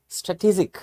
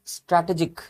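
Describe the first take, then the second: First: स्ट्रेटेजिक said stuh-tee-jik; स्ट्रेटेजिक with a short first vowel and ee; teacher models स्ट्रेटेजिक; correct strategic. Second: स्ट्रैटेजिक with a wide a sound; स्ट्रैटेजिक said stra-te-jik; wrong strategic. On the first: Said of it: "देखो मैं कैसे पढ़ रहा हूँ". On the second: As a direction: mistaken स्ट्रैटेजिक. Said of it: "ये स्ट्रैटेजिक नहीं है". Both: Shown as a demonstration.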